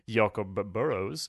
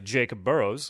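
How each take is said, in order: First: The name is pronounced the Swedish way. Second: The name is pronounced the English way. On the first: "in Swedish, I would say" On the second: "English, will say"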